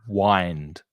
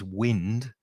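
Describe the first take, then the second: First: The vowel is a long 'eye' sound. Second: The vowel is a short 'ih' sound. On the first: It is the verb meaning to turn a key. "The vowel sound is I, like I" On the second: It is the noun meaning moving air. "W I N D is wind when it's a noun"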